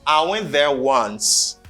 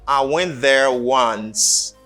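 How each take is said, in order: First: It is said quickly with 'I' reduced. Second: It is said quickly with 'I' reduced.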